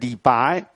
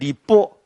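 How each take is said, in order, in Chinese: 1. 最后一个字是长而开口的。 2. 最后一个字是短而收尾的。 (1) "叫你不能练李白" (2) "跟你练李波……他就要强调那个入声"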